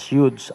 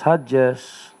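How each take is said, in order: First: The name is said like 'Youths'. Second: The name is said like 'Hodges'. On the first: The speaker calls it right. "but it is pronounced as Youths, American" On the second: The speaker calls it wrong. "Ang iban nag-pronounce na as Hodges"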